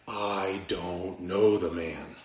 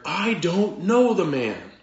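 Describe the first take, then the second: First: Slow, measured mock oath, pitched low; denial under oath. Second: Loud, high, slow acted denial; cursing, swearing denial. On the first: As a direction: swear it slowly, word by word. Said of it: "this time with an oath". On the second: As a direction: swear it forcefully, stretching the words out. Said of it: "invoke a curse on himself and to swear".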